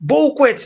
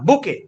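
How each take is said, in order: First: It is said with a 'kw' and final 't'. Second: It is said with a 'k' and no final 't'. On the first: The speaker calls it wrong. "বউকুয়েট না" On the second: The speaker calls it right. "উচ্চারণ হচ্ছে বুকে"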